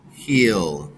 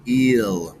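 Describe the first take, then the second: First: Said in the usual way. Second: "eel" drawn out to show the sounds; sound segment. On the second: Shown as a demonstration. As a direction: stretch "eel" slowly. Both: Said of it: "So now we have".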